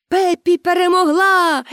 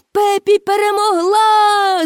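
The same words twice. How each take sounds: First: High shout of victory. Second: Higher, slow, louder victory shout. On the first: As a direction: audience shouting that Pippi won. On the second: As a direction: build the cheer bigger. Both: A narrator's reading. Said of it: "закричали глядачі".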